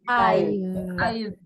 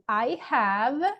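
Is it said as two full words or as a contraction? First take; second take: contraction; full. First: The words are contracted into one syllable. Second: Both words are said fully and separately. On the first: "we can say" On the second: "instead of saying I have"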